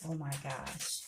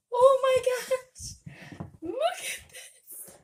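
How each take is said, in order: First: Said in the usual way. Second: Very high, loud, slow delighted squeal; excited squeal. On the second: Real, not acted. To viewers, unboxing her own books: thrilled squeal. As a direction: shriek it with real joy at the package. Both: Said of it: "But I am just so excited".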